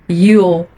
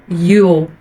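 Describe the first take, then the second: Both takes have the same delivery.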